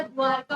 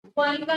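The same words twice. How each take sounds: First: "द्वारका" with r straight into ka; the corrected form "द्वारका", ending in र-का; no middle i. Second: "द्वारिका" with ri in the middle, louder; the mistaken form "द्वारिका", with short i after r; extra i vowel. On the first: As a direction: say "द्वारका" without any i after r. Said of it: "द्वारका होता है". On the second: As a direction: hit "द्वारिका" loudly, voicing the रि. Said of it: "द्वारिका नहीं होता". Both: Shown as a demonstration.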